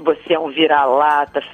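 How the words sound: It is said in a scornful, belittling tone. Being a mutt is something lesser. "nós falamos com uma entonação assim"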